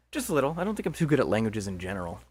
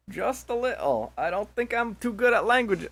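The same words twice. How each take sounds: First: Said in the usual way. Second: High, put-on accented character voice; high, drawn-out character voice; wrong character voice. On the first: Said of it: "Oh, fucking wrong voice. Anyway". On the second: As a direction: pitch it well up, as if playing the wrong character. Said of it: "Oh, fucking wrong voice".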